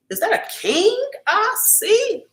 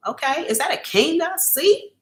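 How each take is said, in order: First: Slow, much higher teasing sing-song on "see"; playful high-pitched swoon; sing-song greeting. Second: Said in the usual way. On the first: Acted. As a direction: croon it up high like flirting with royalty.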